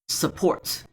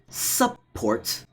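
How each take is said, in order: First: The first vowel is a weak schwa. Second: The first vowel is a full, clear vowel. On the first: The speaker calls it right. "there's a hidden schwa" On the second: The speaker calls it wrong. "not support"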